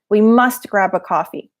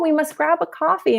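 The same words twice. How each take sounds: First: It is said in a serious, stern tone. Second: It is said in a relaxed, friendly tone. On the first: The invitation sounds aggressive and unwelcome. The speaker calls it wrong. "if you say it too seriously, can sound a little aggressive" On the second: The invitation sounds warm and friendly. The speaker calls it right. "as long as your intonation is relaxed"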